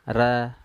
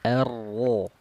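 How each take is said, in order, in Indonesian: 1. Ringan, pangkal lidah turun. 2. Berat, pangkal lidah naik. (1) "jangan ra" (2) "dibaca tafkhim... dengan mengangkat pangkal lidah"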